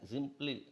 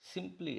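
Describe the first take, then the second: First: The word begins with a J sound. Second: The word begins with an S sound. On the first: "మలయాళీలు పలుకుతుంటారు" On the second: "సింప్లీ అనేదాన్ని"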